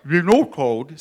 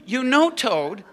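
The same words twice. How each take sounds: First: Loud, muffled words round a mouthful; garbled by a pretend mouthful; mouth full. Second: Said in the usual way. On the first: A narrator's reading. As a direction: talk as if stuffed with cookie. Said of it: "with his mouth full". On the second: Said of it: "Oh, sorry".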